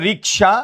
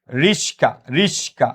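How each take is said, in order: First: রিকশা keeping k ahead of sh; standard pronunciation. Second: রিস্কা with sh before k, "rish-ka"; swapped-sound variant. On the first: Teacher repeating the example, রিকশা as "rik-sha". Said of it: "কেউ বলে". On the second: Teacher showing students the same word's variant, রিস্কা as "rish-ka". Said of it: "same শব্দটাকে কেউ আবার". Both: Shown as a demonstration.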